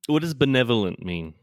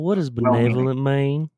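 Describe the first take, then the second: First: It is asked in the speaker's ordinary accent. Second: It is asked in a put-on Southern accent.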